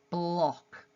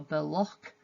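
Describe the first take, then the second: First: The b runs straight into the l. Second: A short vowel separates the b and the l. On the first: "going straight from a b to a l" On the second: "a phoneme's being added in between them"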